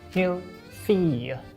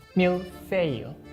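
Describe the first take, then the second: The two takes are said the same way.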